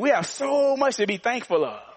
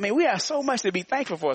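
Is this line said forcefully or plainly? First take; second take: forcefully; plainly. First: It is said with stronger, harder force. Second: It is said with ordinary force.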